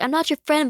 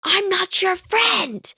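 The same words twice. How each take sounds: First: Brisk, high brush-off; high and loud mock snub, quickly. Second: High, slow, drawn-out snub; haughty mock snub, way up high; standoffish kid. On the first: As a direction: toss off the denial fast. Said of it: "the type of person where it's like". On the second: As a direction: stretch out the cold brush-off. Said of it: "like, the ... type of person".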